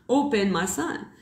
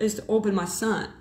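First: "Open my son" repeated slowly with weight on "Open"; slow emphatic repeat. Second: Said in the usual way. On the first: Shown as a demonstration. Telling a follower what happened, slow emphatic "Open my son". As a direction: lean on "Open", then let "my son" land, slowly.

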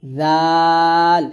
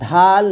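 First: Tongue tip on upper teeth, stretch জাল; correct Arabic dhal. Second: ধাল with a hard aspirated dh stop; wrong dhal. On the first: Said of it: "এটা হবে". (জাল পাতলা করে টেনে) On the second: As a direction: punch out the mistaken ধাল with a stopped d. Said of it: "ধাল না". (ধাল, ভুল উচ্চারণে) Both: Shown as a demonstration.

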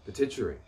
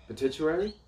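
First: Said in the usual way. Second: "Pituitary?" as a question, pitch rising high at the end; unsure questioning. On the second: Shown as a demonstration. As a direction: lift "Pituitary?" higher, checking how it is said. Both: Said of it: "How do you say it?".

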